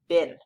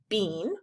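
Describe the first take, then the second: First: The vowel is a short I sound. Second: The vowel is a long E sound. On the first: "most of the time we actually read this word as been" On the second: "you might look at this word and read it bean"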